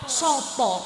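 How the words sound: It is said with Surabaya o vowels.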